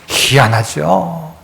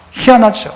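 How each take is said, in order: First: 희한하죠 stretched very slowly and softly; drawn-out wonder. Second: Said in the usual way. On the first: Shown as a demonstration. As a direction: savour 희한하죠 slowly as if marvelling.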